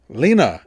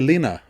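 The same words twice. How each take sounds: First: The name is said louder and annoyed. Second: The name is said at normal volume.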